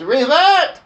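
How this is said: It is said imitating the preacher's voice.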